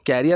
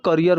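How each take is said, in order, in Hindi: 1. पहला अक्षर 'care' जैसा सुनाई देता है। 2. पहला अक्षर 'cuh' जैसा सुनाई देता है। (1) "कैरियर नहीं बोलेंगे" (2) "इसको करियर बोलेंगे"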